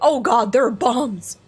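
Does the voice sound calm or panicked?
panicked. It is said urgently, with dramatic panic. The speaker calls it right. "You say"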